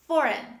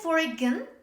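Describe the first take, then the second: First: The letter G is silent in the word. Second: The letter G is sounded in the word. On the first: The speaker calls it right. "This is foreign" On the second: The speaker calls it wrong. "Don't say foreign"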